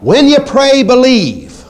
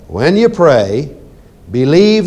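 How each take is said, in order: First: Pray and believe run together without a pause. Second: There is a pause between pray and believe. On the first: Believing happens at the moment of praying. The speaker calls it right. "I want you to take it out of there" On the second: Believing happens after receiving. The speaker calls it wrong. "most people read it like this"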